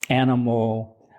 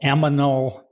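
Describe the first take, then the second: First: The n and m sounds are in order. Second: The m and n sounds are swapped. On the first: The speaker calls it right. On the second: The speaker calls it wrong.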